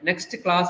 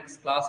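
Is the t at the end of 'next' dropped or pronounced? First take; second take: pronounced; dropped. First: The t at the end of 'next' is pronounced. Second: The t at the end of 'next' is dropped.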